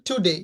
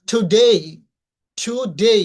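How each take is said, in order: First: Said in the usual way. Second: টুডে as "thu-dei", rising and louder; puffed T and long gliding end on টুডে; aspirated T, EI ending. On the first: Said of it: "আমরা সাধারণত বলে থাকি". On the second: Shown as a demonstration. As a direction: stretch the last syllable of টুডে upward. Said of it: "কিন্তু উচ্চারণ হবে".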